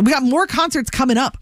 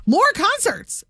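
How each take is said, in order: First: Said in the usual way. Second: MORE jumps up high and punched; stress on MORE. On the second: Real, not acted. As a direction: hit "More" hard and high. Repeats with emphasis.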